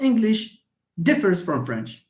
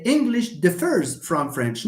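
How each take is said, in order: First: "differs" stressed on DIF; stress on first syllable. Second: "differs" stressed on its final syllable; careful teacher's model, dif-FERS; stress on second syllable. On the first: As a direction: hit the start of "differs", weak ending. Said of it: "not English". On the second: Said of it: "not English differs from French". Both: Shown as a demonstration.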